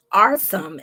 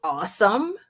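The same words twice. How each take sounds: First: Awesome said like "arsome", with an R after the open first vowel; caption's mishearing. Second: Awesome said clearly as "AW-sum", no R, much higher and rising; correct pronunciation. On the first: Host copies how the caption misheard Awesome, with an R sound. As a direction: mimic the caption: "Awesome" as /ɑɹsəm/, falling. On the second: Host corrects the caption, saying Awesome properly and brightly rising. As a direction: stress the right way: "Awesome" as /ɔsəm/, lifted. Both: Shown as a demonstration. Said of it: "Not arson".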